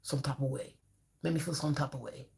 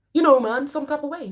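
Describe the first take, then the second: First: Soft, low "some type of way", mumbled and vague; mock client, mumbled. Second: Loud, high, insistent "some type of way"; mock client, emphatic. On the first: Therapist mimics a client avoiding emotions, soft and mumbled. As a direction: trail off like someone dodging the question. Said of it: "Let's talk emotion". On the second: Mimicking a client who can't name the feeling, loud and insistent. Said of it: "I said".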